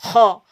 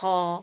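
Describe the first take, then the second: First: The sound is pushed out hard and forcefully. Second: The sound is breathed out gently and softly. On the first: The speaker calls it wrong. "tidak bisa kita ho, ho, ho, tidak" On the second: The speaker calls it right. "mempunyai sifat lembut, lemah. Ho, ho, ho, seperti itu"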